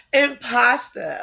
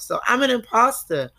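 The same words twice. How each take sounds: First: Imposter with the final r cut off, Jersey style; drawn-out imposter with a clipped Jersey end. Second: Said in the usual way. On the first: Shown as a demonstration. Telling her podcast listeners how Jersey folks say imposter. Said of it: "I say it like that just because, you know, I come from Jersey". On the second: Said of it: "I say it like that just because".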